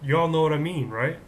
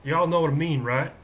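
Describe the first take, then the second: First: Loud Texas twang on y'all; light Texas accent. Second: Louder, showy Texas accent. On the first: Pretend. Host appealing to student viewers, light Texas accent. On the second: Shown as a demonstration. Host demonstrating for viewers, put-on Texas accent. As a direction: show off your Texas twang. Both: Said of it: "I can do a Texas accent".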